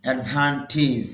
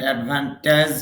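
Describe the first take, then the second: First: অ্যাডভান্টেজ ending in "টিজ", the right way; correct pronunciation. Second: অ্যাডভান্টেজ said with a "টেজ" ending, the way it should not sound; wrong pronunciation. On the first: Teacher giving students the right version, plain and clear. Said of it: "টিজ উচ্চারণ হবে". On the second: Teacher showing students the wrong way, marked as wrong. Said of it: "এটা অ্যাডভান্টেজ হবে না". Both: Shown as a demonstration.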